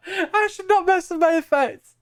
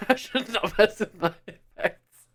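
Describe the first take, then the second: First: Squeaky high pitched filter; high voice effect. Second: Laughing through the line; giggling it out. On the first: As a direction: still through the voice changer. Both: Real, not acted.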